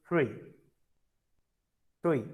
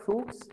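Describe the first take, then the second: First: "fruit" said as French frwee, silent t; falling French "fruit", ending on the ee vowel; French pronunciation. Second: "fruits" said as English froots, ending in ts; English-style "fruits", rhyming with boots; English pronunciation. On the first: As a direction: say "fruit" like free with a glide, no final consonant. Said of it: "It's not fruits, it's fruit". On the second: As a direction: say "fruits" with the final ts sounded. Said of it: "It's not fruits". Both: Shown as a demonstration.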